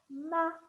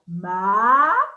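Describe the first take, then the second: First: The syllable is said in the fifth tone. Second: The syllable is said in the second tone. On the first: "And the fifth one" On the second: "The second tone"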